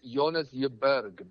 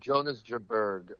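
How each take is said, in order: First: The name is said with a Danish pronunciation. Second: The name is said with an American pronunciation. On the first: This is how people in his home country say it. "the way they say is" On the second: This is an anglicized way of saying it. "is how I say it in in American"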